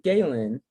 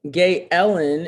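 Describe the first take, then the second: First: The name is said with two syllables. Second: The name is said with three syllables. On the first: The speaker calls it wrong. "I've always called you Galen" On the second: The speaker calls it right. "is what you just said"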